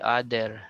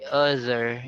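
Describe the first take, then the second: First: The middle consonant is a plain d sound. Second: The middle consonant is a voiced th sound. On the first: The speaker calls it wrong. "you don't say other" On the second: The speaker calls it right. "you say other"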